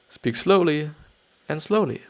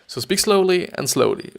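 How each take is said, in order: First: It is read slowly with pauses and falling pitch. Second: It is read at a normal, quicker pace. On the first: "I will totally use what they say" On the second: "they're just normal how uh, maybe two enthusiastic person would just go through this"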